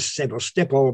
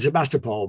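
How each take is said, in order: First: The name is said with a local Ukrainian pronunciation. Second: The name is said with a traditional English pronunciation. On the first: This is the correct local pronunciation. "it's now Sevastopol because I've been there" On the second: This is how it used to be said. "I would have said Sevastopol"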